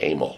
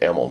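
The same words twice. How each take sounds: First: The name begins with an 'ay' sound like 'aim'. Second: The name does not begin with an 'ay' sound. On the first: This is how the name was mistakenly believed to sound. The speaker calls it wrong. "So I thought Emil was spelled A-I-M-E-L" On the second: This is the name's real pronunciation. The speaker calls it right. "I found out after years it was Emil"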